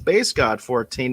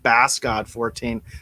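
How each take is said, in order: First: The first word rhymes with face. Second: The first word rhymes with mass. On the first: The speaker calls it right. "That's Base God fourteen" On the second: The speaker calls it wrong. "not Bass God fourteen"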